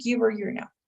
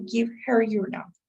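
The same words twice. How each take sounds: First: The h in 'her' is dropped, sounding like 'giver'. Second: The h in 'her' is fully pronounced. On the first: The speaker calls it right. "Give her equals giver" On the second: The speaker calls it wrong. "we don't really say give her your number"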